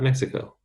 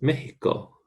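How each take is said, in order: First: The x is pronounced as a ks sound. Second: The x is pronounced as an h sound. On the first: The speaker calls it wrong. "not Mexico" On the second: The speaker calls it right. "this X, a long time ago, used to be pronounced H, and Mexico still keeps that"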